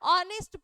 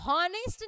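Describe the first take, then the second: First: The word begins directly with a vowel sound. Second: The word begins with an audible h sound. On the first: The speaker calls it right. "अ अ से pronunciation आ रहा है" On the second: The speaker calls it wrong. "हॉनेस्ट नहीं पढ़ते हैं इसको"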